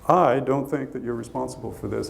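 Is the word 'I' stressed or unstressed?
unstressed. The word I carries no special stress.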